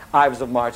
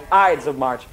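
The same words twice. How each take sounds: First: "Ives" with a V sound in place of D. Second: "Ides" with a D sound before the S. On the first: Teacher jokes about the word, "Ives" with a V for the D. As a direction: say "Ives" to rhyme with "hives". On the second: Teacher checks the word with the class, "Ides" with a clear D. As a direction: say "Ides" to rhyme with "tides". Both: Shown as a demonstration. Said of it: "is it Ives or Ides".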